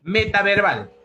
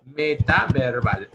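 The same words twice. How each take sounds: First: Metaverbal said high and loud; stressed term. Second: Metaverbal drawn out slowly at normal pitch; slow repeat. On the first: Teacher calling out the answer to students, stressed. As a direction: call out metaverbal clearly. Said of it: "también aparece con el nombre de". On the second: Teacher repeating the term slowly for the class. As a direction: spell Metaverbal out slowly for them. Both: Shown as a demonstration.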